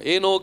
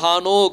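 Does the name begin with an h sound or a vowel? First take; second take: vowel; h sound. First: The name begins directly with a vowel. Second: The name begins with a breathy h sound. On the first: This is how we locally say it. "ஏனோக் அப்படின்னு சொல்லி நம்ம சொல்றோம்" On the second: This is how the original speakers say it. "ஹானோக் அப்படின்னு சொல்லுவாங்க"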